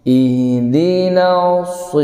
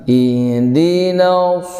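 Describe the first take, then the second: No difference in how they are said.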